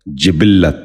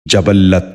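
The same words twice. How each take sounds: First: جبلت said "jibil-lat", with short i in the first two syllables; short i twice, doubled l in جبلت; correct pronunciation. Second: جبلت said "jabal-lat", with short a in the first two syllables; wrong pronunciation. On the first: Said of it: "درست تلفظ ہے". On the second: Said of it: "یہ غلط تلفظ ہے". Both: Shown as a demonstration.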